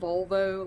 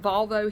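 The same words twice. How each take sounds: First: The first syllable sounds like 'vul'. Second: The first syllable sounds like 'vol'. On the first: This is how some other people say it. "some people pronounce it Volvo, like you're trying to find a nickname for a lady part" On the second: This is how it is said locally. "It's pronounced Volvo here"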